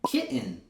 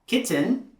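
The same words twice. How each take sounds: First: The T is replaced by a throat catch. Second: The T is pronounced as an audible T. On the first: The speaker calls it right. "I'm saying kitten" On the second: The speaker calls it wrong. "I'm not saying kitten"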